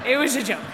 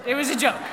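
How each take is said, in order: Both takes have the same delivery.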